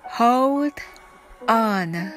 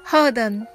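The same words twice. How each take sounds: First: The phrase is spoken slowly. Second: The phrase is spoken quickly. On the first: "それではゆっくり一緒に言ってみましょう。" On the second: "それでは早く言ってみましょう。"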